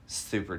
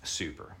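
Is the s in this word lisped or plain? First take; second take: lisped; plain. First: The s sound is said with a lisp. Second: The s sound is said plainly, without a lisp. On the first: "You had, like, a little bit of a lisp when you said that" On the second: "I didn't remember to do it until that last super duper"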